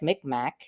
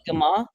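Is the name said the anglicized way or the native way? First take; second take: anglicized; native. First: It is pronounced the anglicized way, like 'Micmac'. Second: It is pronounced the tribe's own native way. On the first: This is the name the government uses. The speaker calls it wrong. "the feds um, call us Micmac" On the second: This is the tribe's own name. The speaker calls it right. "Mi'kmaq is the pronunciation"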